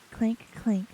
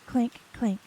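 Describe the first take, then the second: No difference in how they are said.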